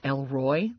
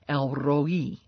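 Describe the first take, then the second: First: It is said as one word, like Elroy. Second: It is said as two separate words, El Roi. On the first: The speaker calls it wrong. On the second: The speaker calls it right.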